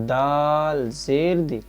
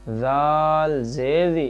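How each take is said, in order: No difference in how they are said.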